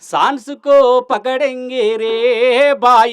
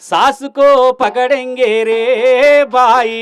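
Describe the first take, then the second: First: The first syllable carries a nasal sound. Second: The first syllable has no nasal sound. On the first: The speaker calls it right. "ఆ సా పక్కపోతే అరసున్న పెట్టి" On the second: The speaker calls it wrong. "ఒకవేళ నువ్వు miss అయ్యి"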